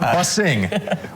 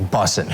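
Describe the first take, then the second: First: The word ends with a full ng sound. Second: The word ends with a plain n sound. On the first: The speaker calls it wrong. "not bussing" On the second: The speaker calls it right. "It's bussin'"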